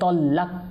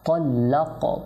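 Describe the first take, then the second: First: The final k is cut off without any bounce. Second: The final k is released with a slight bounce. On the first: The speaker calls it wrong. "কলকলা হবে না" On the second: The speaker calls it right. "একটু সামান্য ধাক্কা দিতে হবে"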